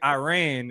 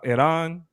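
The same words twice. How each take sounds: First: The name is said in an Americanized way. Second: The name is said with a native-like accent. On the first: The speaker calls it wrong. "calling it Iran is the same thing as being like Mexicans" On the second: The speaker calls it right. "It is pronounced Iran. ... if I say it with an accent because I'm trying to say it right"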